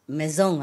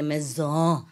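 First: Maison with a nasal French ending, no N sound. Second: Maison with the final N dropped, nasal vowel; French maison. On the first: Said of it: "They say maison". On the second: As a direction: maison the French way, cut the end. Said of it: "with the N at the end". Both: Shown as a demonstration.

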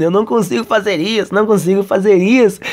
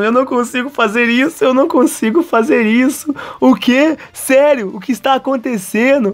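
First: Mildly desperate repeated protest; mock desperation. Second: High-pitched panicked disbelief; mock desperation. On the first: Kazuya still despairing to himself, mild mock desperation. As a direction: repeat it in lightly acted despair. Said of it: "continua ali todo desesperado". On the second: Kazuya despairing as they slide, high-pitched mock panic. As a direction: squeal it, hammed-up and desperate. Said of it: "continua ali desesperado".

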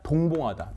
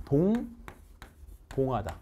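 First: Said in the usual way. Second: 동봉하다 stretched very slowly and softly; drawn-out model word. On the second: Shown as a demonstration. Teacher drawing out 동봉하다 for students to repeat. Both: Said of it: "시작".

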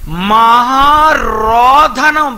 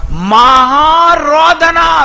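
First: మహారోధనం stretched very slowly, syllable by syllable; drawn-out mahārōdana. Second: మహారోదన wailed slowly, higher and louder; preacher wails మహారోదన slowly to show great weeping; loud drawn wail. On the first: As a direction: stretch out మహారోధనం like a long cry. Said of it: "శరీరధారి అయి ఉన్న దినములలో". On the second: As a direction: cry out మహారోదన as a long loud lament. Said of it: "ఎలా అంటండి ఈయన?". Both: Shown as a demonstration.

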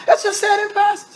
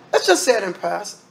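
First: "Let's just say it in passing" pitched way up, insistent; insistent repeat. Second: Said in the usual way. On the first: Real, not acted. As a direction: push the whole phrase high to insist.

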